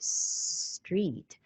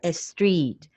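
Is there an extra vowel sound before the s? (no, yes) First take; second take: no; yes. First: The word begins directly with the s sound. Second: A short eh vowel comes before the s. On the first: The speaker calls it right. "emphasizing like street" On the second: The speaker calls it wrong. "They add the eh"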